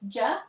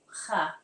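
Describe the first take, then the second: First: The syllable begins with a J sound. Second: The syllable begins with an H sound. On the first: "how do I pronounce it? Medija, ja" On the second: "or ha?"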